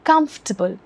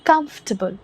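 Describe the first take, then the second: The two takes are said the same way.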